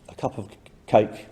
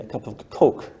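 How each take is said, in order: First: The vowel in Coke is fronted. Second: The vowel in Coke is not fronted. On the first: "fronting of the goat vowel" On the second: "they say a cup of Coke"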